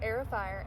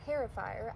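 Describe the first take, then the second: First: The first word starts with a vowel sound. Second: The first word starts with an h sound. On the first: The speaker calls it right. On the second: The speaker calls it wrong.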